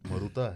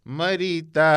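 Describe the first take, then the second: First: An 'oo' vowel is inserted after the r. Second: An 'ee' vowel is inserted after the r. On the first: "कहीं पे ऊ भी है" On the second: "कहीं पे ई है"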